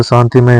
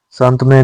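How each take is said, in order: First: शांतिमय with i between t and m; correct added i. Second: शांतमय with t straight into m; wrong form missing i. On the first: Teacher giving learners the correction, शांतिमय with its i. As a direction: say शांतिमय as shaan-ti-may. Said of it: "शांतमय नहीं होता". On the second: Teacher showing learners the mistake, शांतमय without the i. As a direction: say शांतमय as shaant-may. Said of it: "शांतिमय होता है". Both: Shown as a demonstration.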